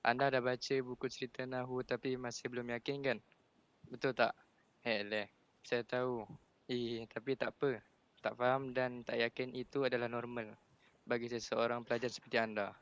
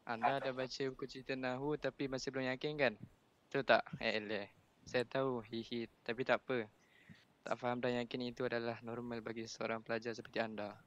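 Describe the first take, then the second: First: Measured read-aloud with some feeling; slightly slower reading. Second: Slightly hurried read-aloud with some feeling; reading too fast. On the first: Student rereading after Ustaz asks, a little slower. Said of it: "Slow sikit". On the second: Student reading to the class for Ustaz, a little rushed. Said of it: "Amir baca laju sangat". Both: Real, not acted.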